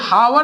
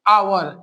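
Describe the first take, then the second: First: The word begins with an h sound. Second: The word begins directly with a vowel. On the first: The speaker calls it wrong. "ये हावर नहीं पढ़ा जाता" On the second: The speaker calls it right. "इसका उच्चारण क्या है, आवर"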